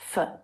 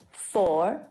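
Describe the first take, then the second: First: The word is unstressed with a schwa vowel. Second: The word is stressed with a full vowel. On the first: "and unstressed" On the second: "when this word is stressed"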